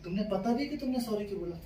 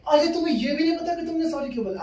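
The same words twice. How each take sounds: First: Soft, restrained mimicked girlfriend; pointed questioning. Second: High-pitched mimicked indignation; outraged girlfriend. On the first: Girlfriend questions boyfriend's apology, soft pointed question. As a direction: ask it softly, testing him. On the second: Girlfriend outraged he can't explain his apology, high indignant mimicry. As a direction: shoot the pitch up in mock outrage.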